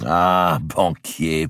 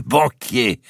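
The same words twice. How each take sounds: First: Loud, beaming exclamation; joyful nobleman hailing his banker; delighted cry. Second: Banquier flung out much higher and louder; delighted cry, banquier soaring up; beaming shout. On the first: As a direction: call him out with a big grin. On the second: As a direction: shout banquier with a wide grin. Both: A narrator's reading. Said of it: "s'écria d'Artois avec un grand sourire".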